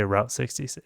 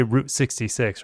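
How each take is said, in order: First: Route rhyming with "out"; Route pronounced "rowt". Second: Route rhyming with "boot"; Route pronounced "root". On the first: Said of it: "They don't say Route sixty-six". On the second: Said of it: "people say Route sixty-six". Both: Shown as a demonstration.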